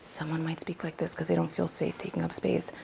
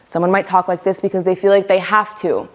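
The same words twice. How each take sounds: First: Very soft, barely-there voice; hushed and unobtrusive; timid low volume. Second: Projected demonstration voice; clearly audible, pushed-forward talk; full volume. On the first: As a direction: speak tiny, as if afraid to take up space. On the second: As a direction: speak up firmly, as if you have to. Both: Shown as a demonstration. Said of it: "The volume at which we speak".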